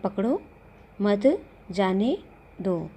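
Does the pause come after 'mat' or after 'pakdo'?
after pakdo. The pause comes after the word 'pakdo'. The child should be caught and not let go.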